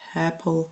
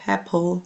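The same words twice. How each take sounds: First: It starts softly with a breathy h sound. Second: It starts softly with a breathy h sound.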